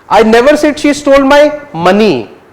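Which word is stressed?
money. The word "money" carries the main stress. "Might have stolen something else"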